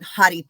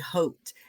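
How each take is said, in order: First: The word is said with two syllables. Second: The word is said with one syllable. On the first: "I call it Hottie Pink" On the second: "Some people say Haute"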